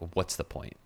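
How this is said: It sounds flat and hopeless.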